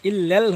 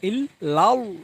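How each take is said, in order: First: The L is thin with a front vowel. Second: The L is full with a back vowel. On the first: The speaker calls it wrong. "হবে না" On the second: The speaker calls it right. "পুর হবে"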